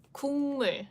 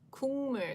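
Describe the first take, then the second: First: The first syllable ends with an ng sound. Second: The first syllable ends with an ng sound.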